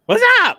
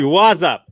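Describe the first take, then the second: First: High-pitched squeaky greeting. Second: Said in the usual way. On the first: Pretend. Host greets, then squeaks.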